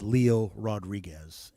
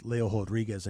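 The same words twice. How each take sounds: First: "Leo Rodriguez" said LEE-oh rod-REE-gez; "Leo Rodriguez" with LEE-oh and an English R; English spelling pronunciation. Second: "Leo Rodriguez" said LAY-oh hod-REE-gez; Brazilian-style "Leo Rodriguez", R as h; Brazilian pronunciation. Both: Shown as a demonstration. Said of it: "so it looks like".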